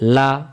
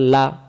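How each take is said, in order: Both takes have the same delivery.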